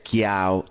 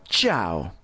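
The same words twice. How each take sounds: First: Chiao said with a hard k sound, kiao; the wrong way, chiao with a k; learner's mistaken chiao. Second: The right way, ciao with ch; ciao, one syllable, chao; correct ciao. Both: Shown as a demonstration. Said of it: "no es chiao".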